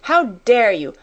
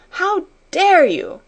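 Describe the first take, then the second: First: Indignant cry, moderately raised; infuriated. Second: Much higher, slow, louder outrage; infuriated. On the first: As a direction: exclaim angrily, punching DARE. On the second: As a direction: stretch DARE into a high angry cry. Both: A narrator's reading. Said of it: "she cried".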